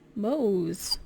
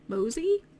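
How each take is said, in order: First: The name is said as one syllable. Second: The name is said as two syllables. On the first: "just now it might be Mose" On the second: "I've always pronounced it Mosey in my head"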